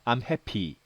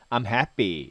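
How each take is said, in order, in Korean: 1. p는 강하게, 숨을 내뿜으면서 발음돼요. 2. p는 약하고 b에 가깝게 발음돼요. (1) "I'm happy 이렇게 하지 않고요" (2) "I'm happy 이렇게 발음하는 거죠"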